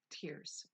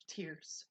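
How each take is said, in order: First: Breathed out in a whisper, trailing off; whispered tears. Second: Said in the usual way. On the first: Real, not acted. Remembering how she cried over her toes, whispered. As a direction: let the word die away in a whisper. Repeated, fading.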